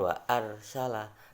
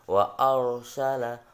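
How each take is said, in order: First: The r is pronounced thin and light. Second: The r is pronounced thick and heavy. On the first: The speaker calls it wrong. "bukan wa arsala" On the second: The speaker calls it right. "tapi wa arsala ... dibaca tebal"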